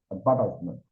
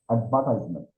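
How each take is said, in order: No difference in how they are said.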